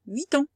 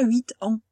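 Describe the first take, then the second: First: Huit ans with the T run into ans, rising; linked liaison. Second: Huit ans with no T linked, a gap before ans; wrong, unlinked. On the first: Teacher giving the right way to a pupil, clearly. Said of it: "On pourrait dire huit ans". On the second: Teacher showing the ugly way to a pupil, deliberately. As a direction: say huit, then ans apart. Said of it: "C'est pas beau". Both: Shown as a demonstration.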